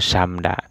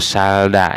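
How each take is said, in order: First: Only an m sound comes before da. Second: Only an l sound comes before da. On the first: The speaker calls it right. "bacanya itu samda" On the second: The speaker calls it wrong. "atau salda"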